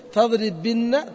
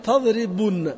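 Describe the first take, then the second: First: Slow demo. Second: Said in the usual way. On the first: Shown as a demonstration. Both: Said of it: "تقول".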